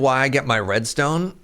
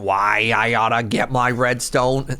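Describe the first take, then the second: First: It is read in a normal voice. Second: It is said in an Elmer Fudd cartoon voice.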